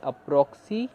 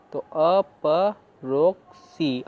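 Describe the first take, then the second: First: Said in the usual way. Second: अपरोक्सी stretched very slowly; slow read-through. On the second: Shown as a demonstration. Teacher reading the whole word slowly for students. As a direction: drag out अपरोक्सी syllable by syllable. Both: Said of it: "अब हम पूरा पढ़ लेते हैं".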